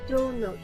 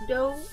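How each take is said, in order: First: It is said as two full words. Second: It is said as one contracted syllable. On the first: "it would normally be do note" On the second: "since the O is missing, it's just don't"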